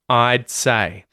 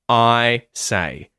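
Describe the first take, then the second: First: A brief muted D stop comes before 'say'. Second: No D stop comes before 'say'. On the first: The speaker calls it right. "it's really important that we have that muting in there" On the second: The speaker calls it wrong. "it's going to sound like you're just saying"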